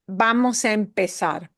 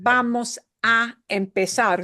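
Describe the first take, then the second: First: The words run together smoothly without any pause. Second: Each word is said separately with small pauses. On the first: The speaker calls it right. "you say it in a very fluid way" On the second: The speaker calls it wrong.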